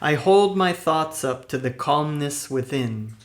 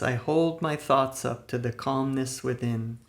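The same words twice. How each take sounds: First: It is said loudly with lots of energy. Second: It is said at ordinary conversational volume. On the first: "with a loud, energetic voice" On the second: "in a normal speaking voice"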